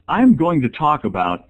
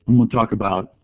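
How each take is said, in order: First: Every word is spoken clearly and audibly. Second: The words are mumbled and blurred together. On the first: The speaker calls it right. "yes, thank you, that's important" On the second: The speaker calls it wrong. "no mumbling or blurring, because kids will commonly say"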